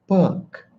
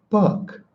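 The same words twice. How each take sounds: Both takes have the same delivery.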